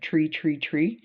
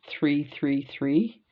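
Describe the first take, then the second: First: It is said in a Cape Breton accent. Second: It is said in a standard accent.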